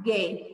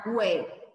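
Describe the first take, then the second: First: "gué" with a hard G and silent U; U mudo. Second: "gué" with the U sounded, as GWEH; U pronunciado, errado. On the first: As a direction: say "gué" as GHEH, no W sound. ("gué" com o U mudo) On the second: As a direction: say "gué" with a W after the G. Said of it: "não vai ficar gué". ("gué" com o U pronunciado, güé) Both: Shown as a demonstration.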